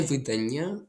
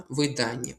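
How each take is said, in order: First: «видання» with stress moved to the last syllable; wrong-stress example. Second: «видання» stressed on DA; stress on second syllable. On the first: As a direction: hit the final NYA in «видання». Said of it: "Не видання, а видання". («видання» з наголосом на останній склад) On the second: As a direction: lean on the middle of «видання». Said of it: "Наголос тут падає на ані". («видання» з наголосом на «да») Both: Shown as a demonstration.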